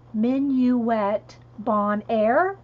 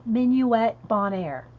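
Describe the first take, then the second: First: Minuet Bon Air said very slowly, BON AIR rising; slow careful French. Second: Minuet Bon Air said more smoothly, ending in a fall; corrected French. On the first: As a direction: spell it out by ear, syllable by syllable. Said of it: "Thank you, [name]". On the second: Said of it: "Is that better?". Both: Shown as a demonstration.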